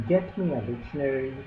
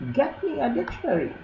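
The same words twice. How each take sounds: First: Said in the usual way. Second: High, fast, squeaky demand; thin reedy voice. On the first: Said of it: "he's asking to fetch". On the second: Acted. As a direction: squeak it like a rat. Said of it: "he would squeak".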